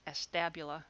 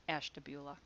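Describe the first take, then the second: First: Ashtabula said as ash-TAB-yoo-luh; outsider's pronunciation. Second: Ashtabula said the Ohio way, ash-tuh-BYOO-luh; local pronunciation. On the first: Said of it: "anybody on the outside would pronounce". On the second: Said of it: "it's pronounced Ashtabula". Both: Shown as a demonstration.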